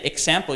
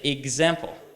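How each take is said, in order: First: The x is said as ks. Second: The x is said as gz. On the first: The speaker calls it wrong. "But you can't say example" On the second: The speaker calls it right. "You have to say example"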